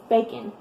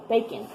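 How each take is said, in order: First: The second syllable's vowel is muffled and quick. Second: The same.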